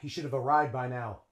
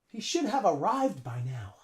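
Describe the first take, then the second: First: 'Should have' is reduced and linked into 'arrived'. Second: 'Should have' is said as separate full words. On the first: "they would usually say" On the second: "Native English speakers maybe would say that"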